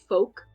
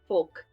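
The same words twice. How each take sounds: First: The L is silent in the word. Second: The L is pronounced before the K. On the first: "It's not like in English where you say folk" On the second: "you pronounce the L in front of the K"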